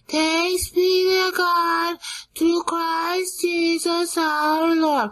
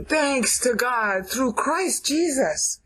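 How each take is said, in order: First: It is said in a flat, boring way. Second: It is said in a dramatic, lively way.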